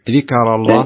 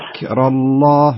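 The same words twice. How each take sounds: First: The k is released with a bouncing echo. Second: The k is released with only a soft breath. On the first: The speaker calls it wrong. "يصير فيها شيء من القلقلة" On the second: The speaker calls it right. "يصير فيها همس فقط"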